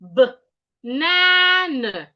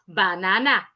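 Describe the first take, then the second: First: The first vowel is reduced to a schwa. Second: The first vowel is a full vowel. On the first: The speaker calls it right. "There are two sures in the word banana" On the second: The speaker calls it wrong. "not banana"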